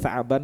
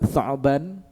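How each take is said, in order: First: The word is said with an Arabic pronunciation. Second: The word is said with an Indonesian pronunciation.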